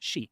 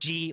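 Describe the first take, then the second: First: The name begins with an 'sh' sound. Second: The name begins with a 'j' sound. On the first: The speaker calls it right. "It's she, like S H E, she" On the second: The speaker calls it wrong. "stop saying President Xi or G or whatever"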